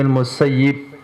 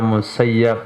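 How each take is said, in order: First: The name ends with an 'ib' sound. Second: The name ends with an 'ab' sound. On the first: The speaker calls it right. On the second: The speaker calls it wrong.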